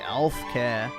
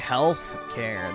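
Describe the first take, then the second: First: The h sound at the start is dropped. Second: The h sound at the start is pronounced. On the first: "they say elf care" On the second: "They don't say health care"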